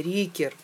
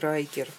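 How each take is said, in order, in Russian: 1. Первая гласная звучит как 'ee'. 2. Первая гласная звучит как 'ai'. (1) "Оказывается, Рикер, а не Райкер" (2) "а не Райкер"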